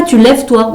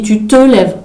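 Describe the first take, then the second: First: Said in the usual way. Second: «te» leaned on, falling tune on «tu te lèves»; teacher stress on te. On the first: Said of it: "On ne dit pas". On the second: Shown as a demonstration. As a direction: make «te» the key word. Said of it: "on dit". (appuyer sur «te» en enseignant)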